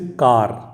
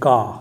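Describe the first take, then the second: First: The final R sound is pronounced. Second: The final R sound is dropped.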